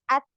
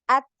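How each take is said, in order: No difference in how they are said.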